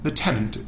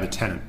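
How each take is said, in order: First: It uses a British accent with a clear t. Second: It uses an American accent, like 'ten in'. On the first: "the tenant in British English" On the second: "in American English we say"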